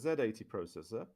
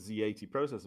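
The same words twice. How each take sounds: First: The letter Z is said the British way. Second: The letter Z is said the American way. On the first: "because I'm English and that's how I pronounce that" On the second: "if you're going to call it the Z X Spectrum, then I should call it a Z eighty processor, but I don't"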